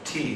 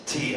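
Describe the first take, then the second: First: The T consonant is soft and relaxed. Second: The T consonant is forced and crisp. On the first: "T sounds fine" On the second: "I've got to really force that consonant so it sounds nice and crisp"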